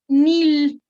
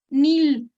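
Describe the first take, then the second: Both takes have the same delivery.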